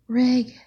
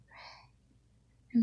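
First: It is shouted loudly and eagerly. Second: It is spoken softly and quietly.

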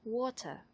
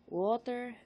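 First: It is said in a British accent. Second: It is said in a Tagalog accent. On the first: "I will try the British accent" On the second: "I will give you the most Tagalog accent that I can muster"

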